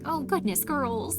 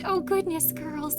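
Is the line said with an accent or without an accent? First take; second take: accent; no accent. First: It is spoken with a put-on accent. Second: It is spoken without a put-on accent.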